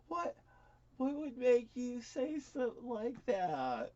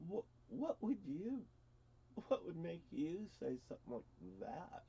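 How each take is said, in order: First: Higher, slow disbelief; drawn-out, baffled question in a raised voice; incredulous. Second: Softer, hushed disbelief; subdued, halting question; stunned. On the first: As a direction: ask it high and slowly, taken aback. Recalls reacting to sister's accusation. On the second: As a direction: ask it quietly, taken aback. Re-enacts his stunned reply to sister. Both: Retold or imitated.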